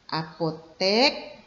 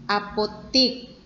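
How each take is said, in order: First: The last syllable is pronounced 'tek'. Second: The last syllable is pronounced 'tik'. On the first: The speaker calls it right. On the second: The speaker calls it wrong. "ini tidak baku ya"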